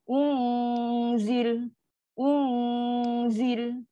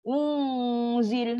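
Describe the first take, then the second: First: "Unzil" with a long hum purely in the nose; nasal dengung. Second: "Unzil" hummed in pouted lips; wrong dengung. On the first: Teacher shows the correct place of hum, nasal dengung. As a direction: hold "Un" inside the nose, then "zil". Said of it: "dia kat dalam hidung aja". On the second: Teacher shows the mistaken place of the hum, pouted dengung. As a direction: push the hum of "Unzil" into a pout. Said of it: "Dengung tak berlaku dalam uncung". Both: Shown as a demonstration.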